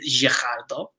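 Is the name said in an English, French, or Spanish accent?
French. It is said with a French accent.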